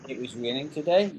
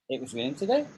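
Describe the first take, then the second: First: The voice falls at the end. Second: The voice rises at the end. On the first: It is a statement. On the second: It is a question.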